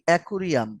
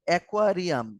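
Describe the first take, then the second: First: The second syllable is pronounced 'ku'. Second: The second syllable is pronounced 'kwa'.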